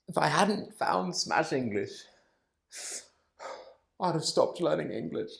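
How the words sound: It is said with clear emotion.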